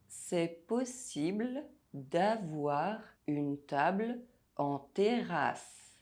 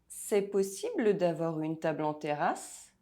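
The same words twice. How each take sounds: First: It is said slowly and deliberately. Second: It is said at normal speaking speed. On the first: "while I say it slowly" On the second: "listen to the sentence without the text"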